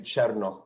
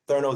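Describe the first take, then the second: First: The name begins like the word chair. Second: The name is said the American way. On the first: This is the speaker's real name. The speaker calls it right. "like the word chair and the word no put together" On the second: This is how people in America said the name. The speaker calls it wrong. "That's like the American way of saying my name"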